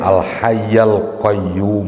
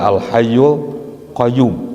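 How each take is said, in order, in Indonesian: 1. Vokal setelah hayy adalah a. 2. Vokal setelah hayy adalah u. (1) "padahal yang benar" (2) "ini biasanya dibaca al hayyul qayyum"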